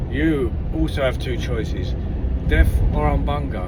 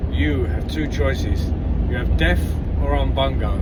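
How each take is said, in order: First: A hint of a booming chief. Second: Slow, grand pronouncement from the chief; a hint of a booming chief. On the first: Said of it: "Chief says to him". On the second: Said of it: "The chief says to the second bloke". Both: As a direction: lay out the choices like a solemn chief.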